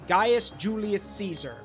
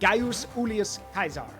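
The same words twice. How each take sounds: First: Caesar begins with a soft S sound. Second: Caesar begins with a hard K sound. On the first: This is the modern Western way of saying it. "in the Western world, we say" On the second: This is how the ancient Romans said it. "In Rome, they would have said"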